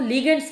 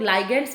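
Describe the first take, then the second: First: The first syllable sounds like 'lih'. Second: The first syllable sounds like 'lie'. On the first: The speaker calls it right. "Exactly इसको लिगेंड्स बोला जाता है" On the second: The speaker calls it wrong. "कई लोग लाइगेंड्स बोल लेते हैं"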